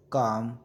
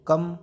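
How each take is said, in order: First: काम with a long stretched आ. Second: कम with a short अ. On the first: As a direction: draw out the आ in काम. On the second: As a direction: clip the vowel in कम short. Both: Shown as a demonstration. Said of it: "क का का".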